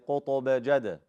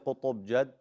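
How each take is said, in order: First: The stopped consonants end with a small bounce. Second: The stopped consonants end flat without a bounce. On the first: The speaker calls it right. "then do qalqala" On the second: The speaker calls it wrong. "Don't say"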